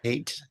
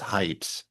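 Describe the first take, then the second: First: The name rhymes with late. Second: The name rhymes with light. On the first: The speaker calls it wrong. "It's not hate" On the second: The speaker calls it right. "but it's height"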